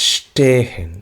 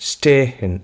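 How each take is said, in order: The two takes are said the same way.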